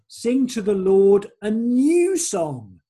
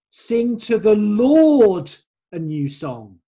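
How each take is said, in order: First: The stress falls on the word new. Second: The stress falls on the word Lord. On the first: The song is new rather than an old one. "as in we've been singing some old songs" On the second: The song is for the Lord rather than other gods. "I think the emphasis is on the word the Lord"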